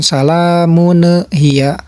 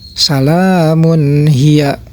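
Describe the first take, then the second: First: The nun sound ends with a bouncing echo. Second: The nun sound is plain and clear. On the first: The speaker calls it wrong. "jangan ada pantulan" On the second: The speaker calls it right. "harus terbaca jelas"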